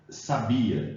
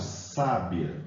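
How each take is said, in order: First: The stress is on the middle syllable. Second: The stress is on the first syllable. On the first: It is the verb meaning knew. "No primeiro caso" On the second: It means a wise woman. "a sílaba tônica nesse caso recai sobre uh, o sa"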